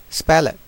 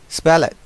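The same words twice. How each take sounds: No difference in how they are said.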